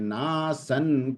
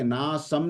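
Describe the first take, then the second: First: The word ends with an n sound. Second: The word ends with an m sound. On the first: The speaker calls it right. "क्योंकि न है ना उसके आगे bracket में" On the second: The speaker calls it wrong. "ना सम नहीं कहा मैंने"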